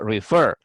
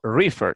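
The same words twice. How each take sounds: First: The stress is on the last syllable. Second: The stress is on the first syllable. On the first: The speaker calls it right. "digo refer" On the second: The speaker calls it wrong. "no digo refer"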